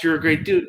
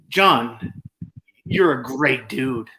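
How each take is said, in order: First: Deadpan, sarcasm creeping in; flat text version. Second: Slow, even, meant compliment; sincere praise. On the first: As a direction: read it the way a text looks. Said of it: "or over text". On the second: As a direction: say it like you mean it. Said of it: "I say it like that". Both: Shown as a demonstration.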